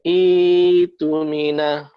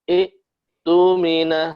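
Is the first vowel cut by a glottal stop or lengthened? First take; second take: lengthened; glottal stop. First: The first vowel is held long without a stop. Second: A glottal stop cuts off the short first vowel. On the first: "dibaca dipanjangkan" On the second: "hamzahnya disukun"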